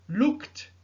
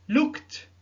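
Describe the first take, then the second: Both takes have the same delivery.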